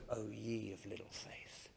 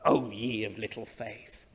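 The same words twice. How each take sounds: First: Soft, much quieter and kind; gentle, understanding. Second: Stern scolding read. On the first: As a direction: say it with a gentle shake of the head. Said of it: "you could read it more gently". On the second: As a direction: scold them gently but firmly. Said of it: "You could read this in a scolding tone". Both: Shown as a demonstration.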